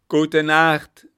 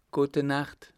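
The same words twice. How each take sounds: First: Very loud, high crowd shout; full-voiced communal yell; shouted farewell. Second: Said in the usual way. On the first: A narrator's reading. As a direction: holler the goodnight as one crowd. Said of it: "riefen sie".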